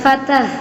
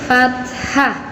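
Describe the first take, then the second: First: No breathy h sound comes before the final vowel. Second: A breathy h sound comes before the final vowel. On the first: The speaker calls it wrong. "bukan fatah. Kalau fatah itu fatah tulang" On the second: The speaker calls it right. "kita biasakan membaca harokat itu fathah"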